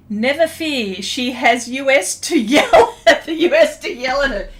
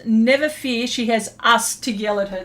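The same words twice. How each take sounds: First: "U S" spelled out as two letters, laughing; reading "us" as the letters U S; misread as U S. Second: "us" said as the plain word, not letters; corrected reading. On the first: Retold or imitated. Reading a viewer comment aloud, "U S" said as letters. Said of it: "Not U S, us". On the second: Shown as a demonstration. Rereading the viewer comment properly, "us" as a word. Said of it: "Let me read that again".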